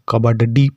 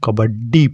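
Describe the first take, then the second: First: The middle consonant is a separate full syllable. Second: The middle consonant is doubled without a vowel. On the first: "अगर डा के नीचे हलंत का चिन्ह नहीं होता तो इसको हम कबड्डी पढ़ते" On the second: "इसका मतलब यह आधा डा है"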